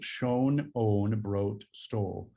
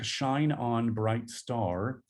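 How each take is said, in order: First: The vowels are rounded and shifted toward O. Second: The vowels are said in their normal form. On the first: "modify their vowels to O" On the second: "the lyric"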